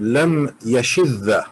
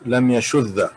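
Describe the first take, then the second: First: The vowel after 'sh' is an 'i'. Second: The vowel after 'sh' is a 'u'. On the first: The speaker calls it wrong. "I have heard some scholars read lam yashidda" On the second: The speaker calls it right. "it's uh, lam yashudda because shadda yashuddu"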